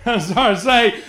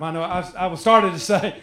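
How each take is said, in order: First: Starting to say it through a laugh. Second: Said in the usual way. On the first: Real, not acted. Preacher catching himself mid-joke with the congregation, laughing. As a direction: let the laugh break into the repeated words.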